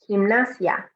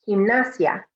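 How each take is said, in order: The two takes are said the same way.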